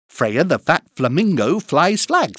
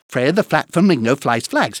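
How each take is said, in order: First: It is said at a fast pace. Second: It is said at a very fast pace. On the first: "plus vite" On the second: "Encore plus vite"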